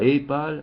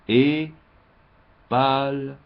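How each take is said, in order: First: It is said straight through without a pause. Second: There is a pause between the two words. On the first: The speaker calls it wrong. "on ne dit pas" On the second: The speaker calls it right. "virgule, hein, donc il faut faire une pause"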